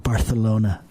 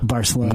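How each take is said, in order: First: The c is said as a 'th' sound. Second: The c is said as a plain 's' sound.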